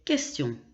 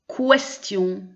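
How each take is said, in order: First: It begins with a plain K sound. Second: It begins with a KW sound. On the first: The speaker calls it right. "ce qui est correct" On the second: The speaker calls it wrong. "Donc pas"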